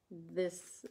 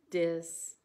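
First: Said in the usual way. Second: "dis" said with a hard d in place of th; "dis" the Wisconsin way. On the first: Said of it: "we say this". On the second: Shown as a demonstration. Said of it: "we say dis instead of this".

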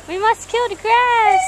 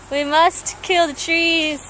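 First: High, slow mock-solemn antelope; female antelope mafia member. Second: Slow, measured antelope mobster; antelope mafia member. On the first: Second antelope answering at the mafia meeting, high drawn-out declaration. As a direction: pitch it up and draw out the decree. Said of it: "she's like". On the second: Acted. Antelope addressing the mafia meeting, slow mock-solemn declaration. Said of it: "He's like".

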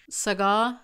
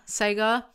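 First: "Sagar" as suh-GAH, long open ending; unsure pronunciation. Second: "Sagar" as SAY-guh, stress up front; alternative pronunciation. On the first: Vlogger recommends a restaurant, "Sagar" tried as suh-GAH. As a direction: say "Sagar" with stress on the second syllable, rising. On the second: Vlogger unsure of the name, "Sagar" tried as SAY-guh. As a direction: say "Sagar" with a long "ay" and weak ending. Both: Shown as a demonstration. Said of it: "It's called Sagar".

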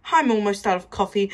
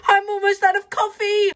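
First: Said in the usual way. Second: Much higher, whining repeat; high whine. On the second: Acted.

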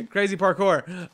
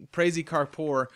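First: Slow, louder, with a laugh on crazy parkour; amused, drawn out and louder. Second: Said in the usual way. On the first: Real, not acted. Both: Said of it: "repeats it laughing".

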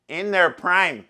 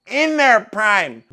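First: Said in the usual way. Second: Slower louder repeat. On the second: Shown as a demonstration.

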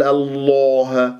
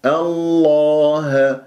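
First: "الله" rounded towards an o; wrongly rounded lips. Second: "الله" chanted slowly with open lips; slow recited "الله", no rounding; unrounded heavy lam. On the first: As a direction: purse the long vowel of "الله". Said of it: "لا تقول الله". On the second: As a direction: hold a heavy but unrounded long vowel in "الله". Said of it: "من غير تكوير". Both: Shown as a demonstration.

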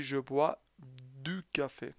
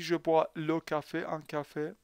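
First: Je bois du café, said slowly and evenly; slow model sentence. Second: Said in the usual way. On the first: Shown as a demonstration. Teacher slowly modelling the correct sentence. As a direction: spell it out slowly so they copy it.

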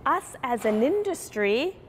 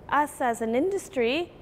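No difference in how they are said.

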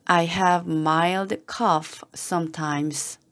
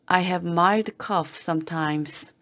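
First: Slow, careful, word by word; slow model reading. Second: Said in the usual way. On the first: Shown as a demonstration. Teacher modelling the phrase for learners, slow and careful. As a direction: read it slowly for learners to follow. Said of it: "teacher models slow first reading". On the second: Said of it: "teacher repeats at normal pace".

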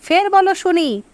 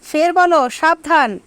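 First: Higher-pitched challenge, voice raised further. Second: Higher, half-roared challenge; narrated roar. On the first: First group raises its voice, daring the others again. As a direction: push the dare up a notch. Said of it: "আরও গলা চড়িয়ে বলল". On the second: First group challenges the other to repeat it, mild roar. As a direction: dare them to say it again, a mild roar. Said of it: "গর্জন করে বলল". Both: A narrator's reading.

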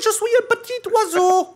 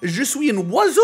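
First: Very high squeaky bird voice in French; high bird squeak after the Québécois take; squeaky little bird. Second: Higher put-on Québécois French, as a bird; goofy Québécois French line; mock Québécois French before the squeak. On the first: Pretend. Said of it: "a really beautiful little bird". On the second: Silly French nonsense for caller.

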